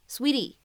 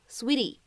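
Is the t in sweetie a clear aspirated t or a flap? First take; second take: flap; flap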